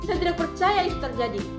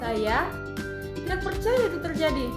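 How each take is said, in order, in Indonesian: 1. Nada tinggi dan tegas, terdengar marah. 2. Nada naik tiba-tiba, terdengar kaget. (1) "intonasi marah atau nada tinggi atau tegas" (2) "kaget. Dengan atau nada naik secara tiba-tiba"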